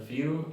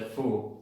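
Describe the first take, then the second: First: The vowel is a 'yoo' sound with a glide. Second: The vowel is a plain 'oo' without glide. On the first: The speaker calls it right. "solo pueden ser pronunciadas you" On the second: The speaker calls it wrong. "no se dice fu"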